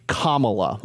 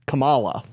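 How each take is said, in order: First: The first part sounds like the word 'comma'. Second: The first part does not sound like 'comma'. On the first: The speaker calls it right. "it is actually Kamala, like Kamala. The piece of punctuation" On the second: The speaker calls it wrong. "I try to intentionally actually use the wrong pronunciation"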